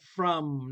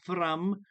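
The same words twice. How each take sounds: First: The R is smooth, with no trill. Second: The R is rolled with a trill. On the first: The speaker calls it right. "We do not roll" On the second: The speaker calls it wrong. "not from"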